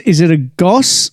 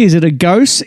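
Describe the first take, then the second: First: Goss said short, like "gauss", a bit slower; "goss" with a short open o, tried slowly; offering the other way to say it; trying out a pronunciation. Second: Gose said as "gohss" with a long o; "gose" rhymed with dose, testing the word; reading the beer name aloud one way; trying out a pronunciation. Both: Shown as a demonstration. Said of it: "G O S E, is it a gose? Is it a goss?".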